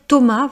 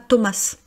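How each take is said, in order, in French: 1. Une lettre du nom reste muette. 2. Chaque lettre du nom se prononce. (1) "version française" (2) "on ne dit pas"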